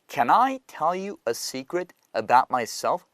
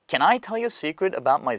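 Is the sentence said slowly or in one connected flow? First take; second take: slowly; connected flow. First: It is said slowly and carefully. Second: It is said in one connected flow. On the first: "천천히 처음부터 끝까지 가겠습니다" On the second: "이어서 쭉 한번 갑니다"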